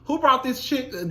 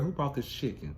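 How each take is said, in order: First: The question is said loudly. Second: The question is said quietly. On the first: The speaker calls it wrong. "I ain't gonna say it that loud" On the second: The speaker calls it right. "I'm gonna be asking my friends"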